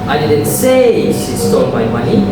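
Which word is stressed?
say. The stress falls on the word say. It was implied, not said. "I implied it"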